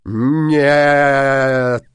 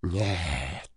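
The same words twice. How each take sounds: First: Loud, drawn-out no; loud refusal. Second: Low, hushed no; quiet refusal. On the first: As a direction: burst out with a long, loud refusal. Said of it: "отвечал Синяя Борода". (громкий протяжный отказ) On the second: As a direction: refuse softly and low, with menace held back. Villain refuses, first quietly. (тихий низкий отказ) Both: A narrator's reading.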